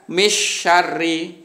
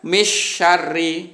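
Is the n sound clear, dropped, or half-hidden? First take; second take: dropped; dropped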